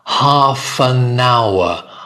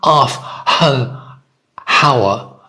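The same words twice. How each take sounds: First: The words run together with no h sound. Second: An h sound is heard before 'hour'. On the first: The speaker calls it right. "you can link them. Half an hour, half an hour. It sounds like all one word" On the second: The speaker calls it wrong. "It's not half an hour. Again, some some nationalities ... they'll put it in the wrong place"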